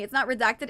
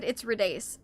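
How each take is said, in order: First: "redacted" said as the ordinary word, ending in -ted; misread name. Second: "Redace" said as red plus ace; corrected name. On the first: Streamer repeating a viewer's correction, misread name "redacted". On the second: Streamer repeating a viewer's correction, corrected name "Redace". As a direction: say "Redace" ending like "ace", softer. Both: Shown as a demonstration.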